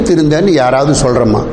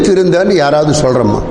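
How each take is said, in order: The two takes are said the same way.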